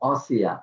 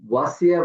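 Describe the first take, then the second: First: The word begins with a rounded 'o' sound. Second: The word begins with a clear 'wa' sound. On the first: The speaker calls it wrong. "অ না" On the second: The speaker calls it right. "ওয়া"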